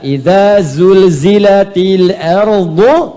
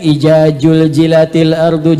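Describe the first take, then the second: First: The consonants are buzzing z sounds. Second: The consonants are j sounds. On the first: The speaker calls it right. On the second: The speaker calls it wrong.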